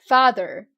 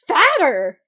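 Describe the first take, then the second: First: The middle consonant is a th sound. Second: The middle consonant is a plain t sound. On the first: The speaker calls it right. "oh, father" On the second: The speaker calls it wrong. "So for anyone that said fatter, you are wrong"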